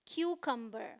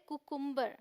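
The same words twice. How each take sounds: First: क्यूकम्बर said as "KYU-kum-ber"; "kyu" first, then short "uh" in क्यूकम्बर; teacher's model of क्यूकम्बर, KYU-kum-ber; correct pronunciation. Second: कुकुम्बर said as "ku-KUM-ber"; both vowels as "oo" in कुकुम्बर; wrong pronunciation. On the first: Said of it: "तो एक का ऊ sound है". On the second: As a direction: misread कुकुम्बर with no "kyu" glide. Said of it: "जो बिल्कुल गलत है". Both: Shown as a demonstration.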